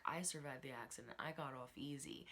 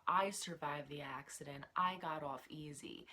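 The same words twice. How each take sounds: First: Quieter, knowing, eyebrows-up delivery; hint at more than she says; raised eyebrows. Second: Said in the usual way. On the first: Retold or imitated. Lucy hinting at her accident, quiet and knowing. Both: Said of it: "raises her eyebrows when she's like".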